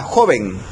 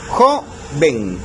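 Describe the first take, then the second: First: Said in the usual way. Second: "joven" in two separate syllables, JO - ven; split into syllables. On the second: Shown as a demonstration. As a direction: break "joven" with a pause after stressed JO. Separa la palabra en dos sílabas. ("joven" separado en sílabas, JO - ven)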